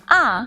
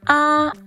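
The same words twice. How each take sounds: First: The pitch falls sharply from high to low. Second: The pitch stays high and level. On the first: "Ah is the fourth tone. The fourth tone is a falling tone" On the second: "ah is the first tone. The first tone is the highest"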